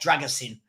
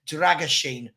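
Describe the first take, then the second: First: The consonant before the last syllable is 's'. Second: The consonant before the last syllable is 'sh'. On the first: The speaker calls it wrong. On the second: The speaker calls it right. "that is how to pronounce this"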